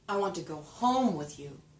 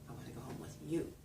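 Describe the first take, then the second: First: The word home is stressed. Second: The word you is stressed.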